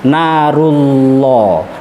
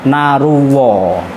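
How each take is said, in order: First: The middle consonant is a clear l. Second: The middle consonant sounds like a w. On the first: The speaker calls it right. "lidah jenengan ditekuk ke atas" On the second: The speaker calls it wrong. "masih pada makhrajnya wawu"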